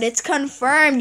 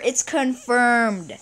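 First: Said in the usual way. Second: "confirmed" stretched very slowly; drawn-out announcement. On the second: Real, not acted. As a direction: savour each syllable of confirmed. Celebrating lucky day.

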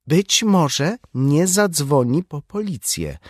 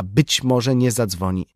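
First: Higher, slow, insistent; raised voice. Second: Said in the usual way. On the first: A narrator's reading. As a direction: raise your voice and press on, undeterred. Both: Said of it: "podnosząc głos".

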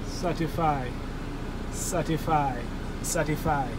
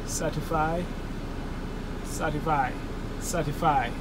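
No difference in how they are said.

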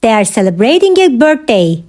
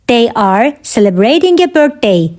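First: Said in the usual way. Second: Measured, separated phrases; careful teaching repeat. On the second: Shown as a demonstration. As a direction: pause after "They are". Teacher repeats answer for learners.

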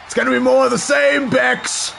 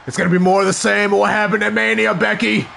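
First: Taunting shout at the screen; loud trash talk repeat. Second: Said in the usual way. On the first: Shown as a demonstration. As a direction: yell it at her like trash talk. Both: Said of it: "repeats it louder".

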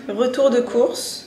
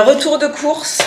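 First: Said in the usual way. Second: Annonce haute et traînante, plus forte; annonce enjouée. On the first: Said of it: "Euh, retour de course". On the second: Shown as a demonstration. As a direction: lancer la séquence comme un présentateur. (annonce de retour de courses, forte)

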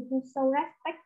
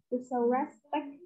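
First: Said in the usual way. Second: Slow dictation. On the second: Shown as a demonstration. Teacher repeats phrase slowly.

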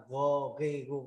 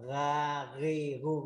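First: "gồ ghi gu" with a rounded o in "gồ"; throaty drill, "gồ" rounded to an o vowel; rounded "ô" reading. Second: "gà ghi gu" with an open a in "gà"; throaty drill, "gà" opened to an a vowel; open "a" reading. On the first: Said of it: "nó có hai cách đọc như thế". (đọc "gồ ghi gu", âm ô tròn) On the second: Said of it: "cũng được mà là gồ ghi gu". (đọc "gà ghi gu", âm a mở) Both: Shown as a demonstration.

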